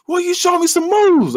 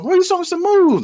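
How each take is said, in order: First: Very high, slow call; mock shout over music. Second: High-pitched stretched holler; mock shout over music. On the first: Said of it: "the music's too loud". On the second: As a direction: keep hollering high after the music has stopped. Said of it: "they turn the music off".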